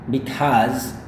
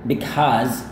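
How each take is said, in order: The two takes are said the same way.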